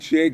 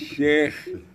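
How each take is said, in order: First: It sounds like the English word shake. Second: It does not sound like English shake. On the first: The speaker calls it wrong. "Not shake, brother" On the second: The speaker calls it right. "It's shake"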